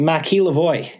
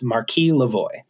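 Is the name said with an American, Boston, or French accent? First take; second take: Boston; American. First: The name is said with a Boston accent. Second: The name is said with an American pronunciation. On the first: "How do you say that in a Boston accent?" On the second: "our American version of this"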